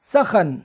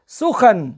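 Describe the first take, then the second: First: The vowels are a, then a. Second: The vowels are u, then a. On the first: "सीन और खे दोनों के ज़बर के साथ" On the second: "सीन के पेश और खे के ज़बर के साथ"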